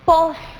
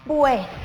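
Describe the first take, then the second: First: The word is said with a plain o vowel. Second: The word is said with the ue diphthong. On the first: The speaker calls it wrong. "No logra María pronunciar correctamente esa palabra" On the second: The speaker calls it right. "la correcta pronunciación es pues"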